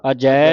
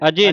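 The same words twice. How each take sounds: First: ਅਜੈ with a long open "ai", a-jai; correct ਅਜੈ. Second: ਅਜੇ with a closed "e" ending, a-je; quick wrong reading ਅਜੇ, no open "ai"; mistaken ਅਜੇ. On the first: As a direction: model ਅਜੈ louder, holding the dulavan vowel. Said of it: "ਇਸ ਦਾ ਉਚਾਰਨ ਹੈ ਅਜੈ ਹੈ". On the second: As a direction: misread it as a-je. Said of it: "ਅਜੇ ਨਹੀਂ ਪੜ੍ਹਨਾ ਇਹਨੂੰ". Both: Shown as a demonstration.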